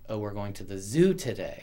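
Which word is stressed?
zoo. The stress is on the word zoo.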